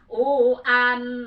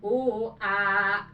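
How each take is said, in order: First: It ends in a clear n sound. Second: It ends in a long vowel without n. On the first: The reader continues into the next word. "nah sekarang idhar" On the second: The reader stops on this word. "jadi panjang dua harkat karena tanwin dibuang diganti ku alif"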